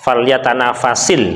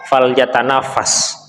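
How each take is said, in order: First: The final s is followed by an i vowel. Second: The word ends on the bare s sound. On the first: The article 'al' follows the verb. "karena ada alif lam maka menjadi sin, uh, kasroh" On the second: No article follows the verb. "kalau tidak ada alif lam maka dibaca fal yatanafas"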